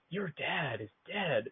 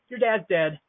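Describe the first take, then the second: First: The line is delivered in a heavy, dramatic way. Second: The line is delivered in a light, offhand way. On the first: The speaker calls it wrong. "he read it in a very dramatic way. He's like" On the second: The speaker calls it right. "But I think you meant it more like"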